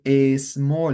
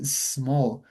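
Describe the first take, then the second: First: A small with an added vowel before small; wrong pronunciation. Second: Small as one clean syllable, slow and soft; correct pronunciation. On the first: Teacher shows students the mistake, a small with added vowel. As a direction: put an extra a sound in front of small. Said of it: "We don't say a small". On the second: Teacher models for students the right way, one-syllable small. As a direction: say small as a single syllable, no vowel before it. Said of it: "We say small". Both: Shown as a demonstration.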